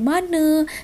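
The word ends with an 'e' vowel. "diubah menjadi"

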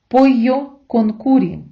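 The double L sounds like y, curry with u. "в Іспанії це б звучало як «пойо конкурі»"

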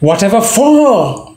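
The stress falls on 'for'. The father thought the son was ready. "Stress on for"

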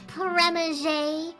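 The name is said with a French pronunciation.

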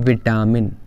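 The word is said in the commonly used variant. The speaker calls it wrong. "हम बोलते क्या है? ... विटामिन is incorrect"

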